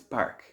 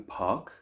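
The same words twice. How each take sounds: First: It is said in an Irish accent. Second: It is said in a British accent. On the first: "where I come from, it's park" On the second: "In the United Kingdom, it might be park"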